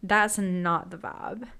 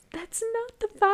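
First: Said in the usual way. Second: High, sing-song repeat; mocking high voice.

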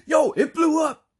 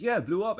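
First: Slow, high, full mock shout; excited emphasizer. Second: Higher-pitched but not shouted; animated confirmation. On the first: Henry echoes Mike about the explosion, imitated in an excited shout. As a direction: bellow it as an overexcited echo. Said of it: "he's almost like an emphasizer". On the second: Retold or imitated. Mike confirms the explosion, imitated with contained excitement. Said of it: "then Mike says".

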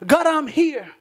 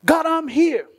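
First: A raised plea, reaching up once more; loud cry to God. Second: A raised cry for help, reaching upward; loud cry to God. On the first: Worshipper crying to God in prayer, loud and urgent. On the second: Worshipper crying to God in prayer, loud and pleading. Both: Pretend.

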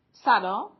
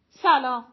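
First: سلام loud, rising like a question; questioning greeting. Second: سلام called out loud, falling at the end; bright greeting. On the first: Girls answering a stranger, سلام with a questioning rise. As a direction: lift the end of سلام in puzzlement. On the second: Shirin approaching two girls, سلام called out with a fall. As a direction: say سلام loudly with a confident falling tune. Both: Acted.

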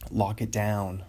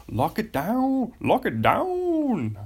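First: Said in the usual way. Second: Much higher, slow and louder; mock dramatic. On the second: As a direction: stretch it out way up high, hammed-up. Playful repeat of catchphrase.

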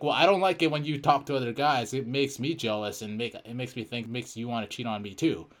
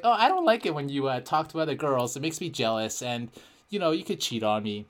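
First: Said in the usual way. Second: Fake girl voice. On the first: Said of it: "I'll be like". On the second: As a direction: put on a sassy girlfriend voice. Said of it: "fake girl voice".

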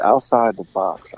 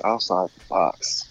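First: Said in the usual way. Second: Low, slow announcer rumble. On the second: Shown as a demonstration. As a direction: drawl it deep like a promo. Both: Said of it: "Let's see".

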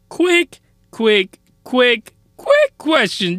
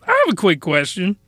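First: Drawn-out stammer. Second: Said in the usual way. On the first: Acted. Stretched, stuttering buildup to rant.

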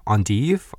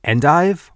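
First: "endive" as ahn-teev; French pronunciation. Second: "endive" as EN-dive, pitched up; "endive" with an English long i; anglicized pronunciation. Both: Shown as a demonstration. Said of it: "when I have to pronounce".

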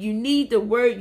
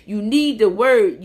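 First: Said in the usual way. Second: Slow and louder, leaning on need; emphatic repeat. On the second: Shown as a demonstration. Preacher urging viewers, slow and emphatic. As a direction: press each word of You need the word slowly.

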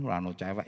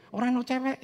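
First: Said in the usual way. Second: High, loud exclamation: Ora ono cewek; preacher's outcry of Ora ono cewek, much higher and louder; exclaimed. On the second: Real, not acted. Repeats the line, far louder.

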